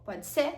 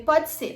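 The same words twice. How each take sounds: First: "Pode ser?" with a rising questioning end; doctor's question. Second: "Pode ser." higher and louder, falling at the end; agreeing answer. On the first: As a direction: ask "Pode ser?" as a check for agreement, tune going up. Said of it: "Aí ele falou". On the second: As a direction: answer "Pode ser." firmly, tune coming down. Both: Retold or imitated.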